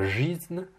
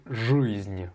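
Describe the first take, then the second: First: Slow "жизнь" with a front ee; wrong i vowel. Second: "жизнь" with a darker vowel after zh. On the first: Teacher imitates the wrong vowel in "жизнь". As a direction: say "жизнь" with a bright ee. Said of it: "c'est pas жизнь". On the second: Teacher models the darker vowel. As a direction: pull back the vowel in "жизнь". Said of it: "mais жизнь". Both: Shown as a demonstration.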